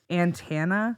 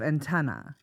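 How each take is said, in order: First: The word ends with a vowel like 'Santana'. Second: The word ends with the standard 'antenna' vowel. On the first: The speaker calls it wrong. "I used to say antenna" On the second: The speaker calls it right. "instead of antenna"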